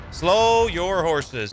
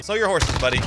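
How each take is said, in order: First: Drawn-out taunt. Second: Said in the usual way. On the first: Acted.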